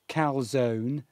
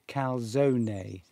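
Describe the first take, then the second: First: The final E is silent. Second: The final E is pronounced. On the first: "Number one" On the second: "Christina's saying you do pronounce the E"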